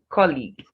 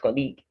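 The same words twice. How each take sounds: First: The stress is on the first syllable. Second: The stress is on the second syllable. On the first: The speaker calls it right. "stressed on its first syllable" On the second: The speaker calls it wrong. "not the second"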